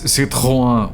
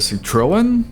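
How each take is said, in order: First: It is said with a French accent. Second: It is said with an English accent. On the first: "the correct pronunciation is Citroën, which only French people" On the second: "if you're an English speaker, you call it a Citroen"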